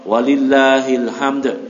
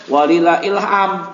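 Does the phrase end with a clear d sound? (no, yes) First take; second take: yes; no. First: It ends with hamd, the final d clearly said. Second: It ends with ilham, the final d dropped. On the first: The speaker calls it right. "Kalau di wasal walillahil hamd" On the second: The speaker calls it wrong. "jangan sampai walillah ilham"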